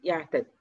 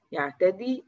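First: يعتدي cut to a short final i, falling; shortened final vowel. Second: يعتدي with a long final ee, rising; full final vowel. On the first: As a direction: trim the ee of يعتدي to a brief kasra. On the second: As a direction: hold the ee of يعتدي, pitch going up. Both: Shown as a demonstration. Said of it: "إحنا حذفنا حرف العلة".

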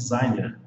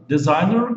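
First: "designer" said the Brazilian way, like "dizáiner"; Portuguese pronunciation. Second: "Designer" said the English way, with a full first syllable and English R; English pronunciation. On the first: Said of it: "em português nós falamos". ("designer" com pronúncia de português) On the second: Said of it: "em português nós falamos também". ("Designer" com pronúncia de inglês) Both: Shown as a demonstration.

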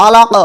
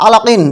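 First: আলাক ending on a bounced q; teacher's model আলাক, final q popped; qalqalah on stop. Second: Said in the usual way. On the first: Shown as a demonstration. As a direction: stop on আলাক and release the q with a short echo. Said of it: "অক্ফ করিলে". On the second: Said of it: "কলকলার উদাহরণ দিচ্ছি আমি".

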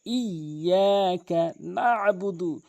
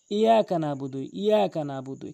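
First: Slow ইয়াকা নাবুদু, double y and throat ain; drawn-out, doubled ইয়াকা নাবুদু; correct recitation. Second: Quick ইয়াকা নাবুদু with single ya; ইয়াকা নাবুদু run lightly through; common mispronunciation. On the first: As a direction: hold ইয়া and press the ain after না in ইয়াকা নাবুদু. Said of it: "ইয়াটি তাসদিদযুক্ত double উচ্চারণ করতে হবে". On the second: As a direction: say ইয়াকা নাবুদু undoubled, no ain. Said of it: "মারাত্মক লেভেলের ভুল করে". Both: Shown as a demonstration.

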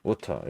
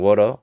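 First: "water" with a clear hard T; British pronunciation. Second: "water" with a tapped, L-like T; American pronunciation. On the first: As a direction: keep the T crisp in "water", no final R. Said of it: "영국에서는". ("water"의 T를 그대로 살려 영국식으로) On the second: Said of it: "미국에서는". ("water"의 T를 굴려서 미국식으로) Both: Shown as a demonstration.

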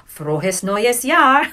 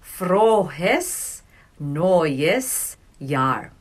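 First: Frohes neues Jahr quicker and brighter; closer to natural speed. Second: Frohes neues Jahr stretched out very slowly, FRO-hes NOY-es YAHR; very slow drill. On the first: Teacher moving the class toward normal speed. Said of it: "try to say it the same speed". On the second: Teacher practicing New Year greeting with class, very slow. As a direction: drag each word of Frohes neues Jahr. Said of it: "let's say it together". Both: Shown as a demonstration.

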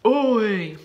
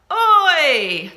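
First: Put-on grumpy teen oi, pitch kept down; mock teenage grumpiness; grumpy teenager. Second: Loud, high oi, falling away; playful shout to get someone's attention; calling out. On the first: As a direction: grunt it like a moody teenager. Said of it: "oi in a grumpy teenage voice". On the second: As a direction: holler it at a grown-up. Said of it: "Can you say oi to your grown-up?". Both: Shown as a demonstration.

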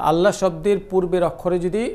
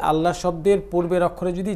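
Both takes have the same delivery.

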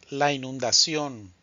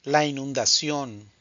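No difference in how they are said.

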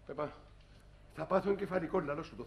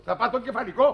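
First: Muttering under his breath, much softer, "θα πάθω εγκεφαλικό" sunk low; muttered despair. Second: Said in the usual way. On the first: Acted. Father mutters to his wife he'll have a stroke, much softer and lower. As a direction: sink into an exhausted mutter.

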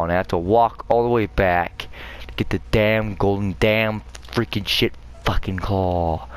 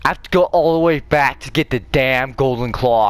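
First: Said in the usual way. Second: Annoyed. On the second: Real, not acted. Forced to backtrack for item.

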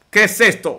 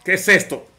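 First: Punched-up amazed repeat. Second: Said in the usual way. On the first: Real, not acted. Caster repeating it to viewers, amazed. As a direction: hit qué harder in disbelief.

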